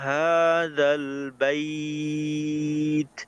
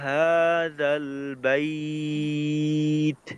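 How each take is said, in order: No difference in how they are said.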